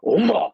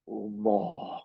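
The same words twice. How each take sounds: First: The word is said short and sharp. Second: The word is drawn out slowly.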